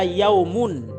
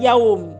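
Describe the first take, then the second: First: The word ends with a full -un ending. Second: The word stops short without the -un ending. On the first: The speaker calls it right. "illa yaumun" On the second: The speaker calls it wrong. "bukan yaum. Jangan selalu dimatikan ya"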